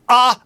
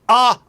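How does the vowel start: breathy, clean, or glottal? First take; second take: glottal; glottal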